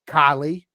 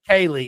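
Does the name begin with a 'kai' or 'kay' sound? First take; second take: kai; kay. First: The first syllable sounds like 'kai'. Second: The first syllable sounds like 'kay'. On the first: The speaker calls it wrong. "did I say it right? No" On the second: The speaker calls it right.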